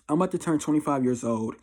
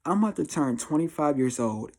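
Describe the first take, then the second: No difference in how they are said.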